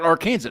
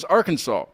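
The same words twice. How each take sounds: First: The word ends like the word 'Kansas'. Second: The word ends with a 'saw' sound. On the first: "Why isn't it Arkansas?" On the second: "but Arkansas is Arkansas"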